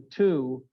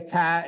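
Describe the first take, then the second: First: The vowel is a full, long 'oo'. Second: The vowel is reduced to a short 'uh'. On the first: The speaker calls it right. "instead of a two" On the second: The speaker calls it wrong. "the use of to in our language here in Western New York has changed to ta, and it's driving me nuts"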